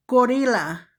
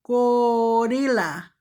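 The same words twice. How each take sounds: First: Said in the usual way. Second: Gorilla stretched out slowly, syllable by syllable; slow clear Gorilla for young learners; slow careful repeat. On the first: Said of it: "teacher models word twice". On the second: Shown as a demonstration. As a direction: model Gorilla slowly for the kids. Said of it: "slow repeat for learners".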